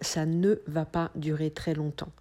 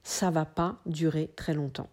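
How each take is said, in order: First: The negation word 'ne' is pronounced. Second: The negation word 'ne' is dropped. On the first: This is the formal, standard way to say it. "normalement, on devrait dire" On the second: This is the casual spoken way to say it. "il est purement et simplement supprimé"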